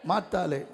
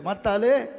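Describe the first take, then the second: First: "மாத்தாளே" at normal volume, falling at the end; second, settled call of "மாத்தாளே"; repeated call. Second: "மாத்தாளே" called loudly with a lift; loud first call of "மாத்தாளே". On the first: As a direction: repeat "மாத்தாளே" more gently, settling downward. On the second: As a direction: call out "மாத்தாளே" to get her attention. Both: Retold or imitated. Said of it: "திரும்பி கேட்கிறாரு".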